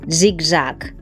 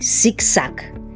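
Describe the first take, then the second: First: The z sounds are voiced, with buzzing. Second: The z sounds are voiceless, a hiss. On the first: The speaker calls it right. "la esa sonora" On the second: The speaker calls it wrong. "No decimos"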